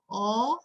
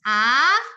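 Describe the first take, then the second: First: The vowel is said with strongly rounded lips. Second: The vowel is said with a very wide mouth. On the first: "A-nya itu bulat, kayak bulat tapi terlalu ekstrim"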